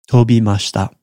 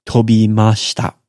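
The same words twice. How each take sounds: The two takes are said the same way.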